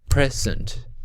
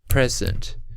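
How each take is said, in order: First: The stress is on the first syllable. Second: The stress is on the first syllable.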